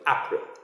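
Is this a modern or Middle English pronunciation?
Middle English. It is said with Middle English vowels. "you have to speak it like April"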